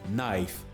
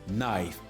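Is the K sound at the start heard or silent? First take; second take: silent; silent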